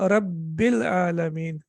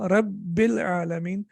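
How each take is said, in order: No difference in how they are said.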